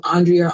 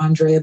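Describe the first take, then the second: First: Andrea said on-DREE-uh; pronunciation of Andrea. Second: Andrea said on-DRAY-uh; pronunciation of Andrea. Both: Shown as a demonstration. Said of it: "emphasis. So I don't know".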